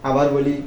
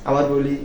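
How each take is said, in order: Both takes have the same delivery.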